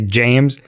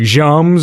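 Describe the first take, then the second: First: It is said with an English accent. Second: It is said with a French accent.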